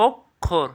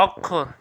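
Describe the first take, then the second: First: "অক্ষর" as ওক্, pause, খোর; split pronunciation. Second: Said in the usual way. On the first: Shown as a demonstration. Teacher quizzing students, "অক্ষর" in two clear pieces. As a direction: break "অক্ষর" after the k. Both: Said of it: "এটা কী হবে".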